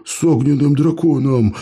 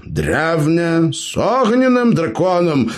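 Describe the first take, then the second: First: «огненным» выдохнуто с изумлением, громче; awed gasp. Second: Высокое «огненным», нарочито разжёванное, как малышу; ironic, as to a child. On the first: Gromila repeats in amazement, awed gasp. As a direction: gasp out «огненным драконом» in wonder. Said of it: "ахнул Громила". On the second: Gnome explains to the elf, ironic as to a child. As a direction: explain «огненным драконом» slowly as to a toddler. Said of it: "иронично, как малышу, объяснил". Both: Acted.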